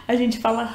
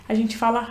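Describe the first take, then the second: Both takes have the same delivery.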